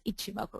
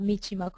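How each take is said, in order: First: The word begins with a vowel sound. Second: The word begins with an M sound. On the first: The speaker calls it right. "it's Ichimoku" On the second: The speaker calls it wrong. "It's not Michimoku"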